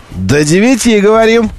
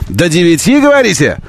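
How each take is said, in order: First: До девяти falling, firm statement; answering tune. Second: До девяти rising as a question; asking tune. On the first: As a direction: answer До девяти, говорим with a settled fall. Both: Shown as a demonstration.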